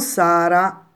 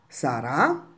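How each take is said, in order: First: The stress is on the first syllable. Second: The stress is on the last syllable. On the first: It is a girl's name. The speaker calls it wrong. "e non Sara" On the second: It means someone will be. The speaker calls it right. "l'accento sulla lettera A, quindi si pronuncia sarà"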